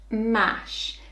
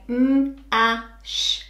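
First: Said in the usual way. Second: M-a-sh split into slow separate sounds; segmenting m-a-sh for a child; sound talk. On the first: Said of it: "sound talk". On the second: Shown as a demonstration. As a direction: sound out m-a-sh, one sound at a time. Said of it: "if I'm using sound talk".

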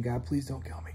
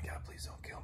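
First: Said in the usual way. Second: Barely audible whispered plea, much softer; whispered prayer. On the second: Retold or imitated. Frightened man on his bunk begging God, in a whisper. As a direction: breathe the words out, frightened.

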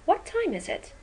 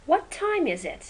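First: "What time is it" high on "time", falling to the end; falling tune. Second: "What time is it" peaks on "time" and falls; falling tune. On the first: Teacher models a wh-question falling. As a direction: let "time" peak then fall. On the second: Teacher repeats the falling wh-question. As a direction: bring the voice down from "time". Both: Shown as a demonstration. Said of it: "از بالا به پایین".

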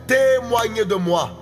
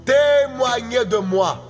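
Both takes have the same delivery.

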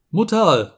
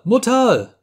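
First: High frightened call to mother; a child's first desperate cry. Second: Much higher, louder second cry of panic; the call breaks upward in fear; frantic child screaming for mother; desperate cry for mother. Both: A narrator's reading. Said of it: "wollte das Schluckerle schreien".

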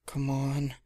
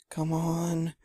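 First: Said in the usual way. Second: Higher, held-out urging; a straining self-urge, pitched up; urging herself on. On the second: A narrator's reading. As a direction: draw it out higher the second time. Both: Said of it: "Sweetie kept saying".

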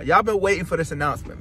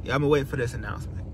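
First: Said in the usual way. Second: Fast teasing whisper; hushed secret-keeper whisper. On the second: Acted. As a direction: breathe it like a secret. Teasing the big announcement.

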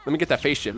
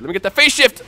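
First: Said in the usual way. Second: Higher and louder, straining for the move; excited urgent call. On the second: Real, not acted. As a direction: push it out as the move hits. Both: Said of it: "repeats the line, second louder".

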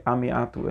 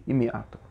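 First: עמי אתו with an "a" at the start of עמי; AH vowel in עמי. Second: אמי אתו with an "i" at the start of אמי; EE vowel in אמי. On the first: Teacher quoting the verse's usual reading, עמי said "ah-mee". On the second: Teacher giving the verse's alternate reading, אמי said "ee-mee". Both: Shown as a demonstration. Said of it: "אל תקראי".

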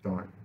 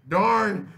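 First: Said in the usual way. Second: Much higher and louder annoyed outburst; frustrated shout. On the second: Real, not acted. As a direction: blurt it out loud in real frustration. Repeats darn, second louder.

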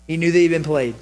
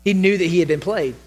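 The two takes are said the same way.

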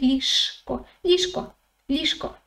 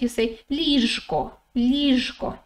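First: Ліжко said quickly, zh softened into a sh sound; quick everyday pronunciation. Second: Ліжко said slowly with a clearly voiced zh in the middle; careful slow pronunciation. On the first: Teacher showing learners how it sounds said quickly, ліжко with sh. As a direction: let the zh in ліжко turn to sh, as in lishko. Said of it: "if you say it quickly". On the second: Teacher showing learners the letter Ж said properly, careful ліжко with voiced zh. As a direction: sound out the zh fully in ліжко. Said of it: "If you say it slowly". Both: Shown as a demonstration.

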